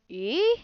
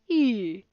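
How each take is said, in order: First: The pitch goes up from mid. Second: The pitch goes down. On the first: "a rising tone is like e, like in a question" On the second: "A falling tone is like e"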